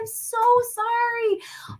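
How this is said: The apology sounds overly dramatic and emotional. The mistake feels like a big deal. The speaker calls it wrong. "I am team overly expressive all the time"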